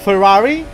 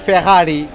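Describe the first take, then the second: First: Ferrari is said with a British English accent. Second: Ferrari is said with a Portuguese accent. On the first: "the British pronunciation of Ferrari" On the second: "We say Ferrari in Portuguese"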